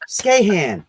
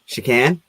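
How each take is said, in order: First: The name begins with an sk sound. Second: The name begins with an sh sound. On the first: The speaker calls it right. "That's not an H. That's a K" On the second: The speaker calls it wrong. "I said it wrong the whole time"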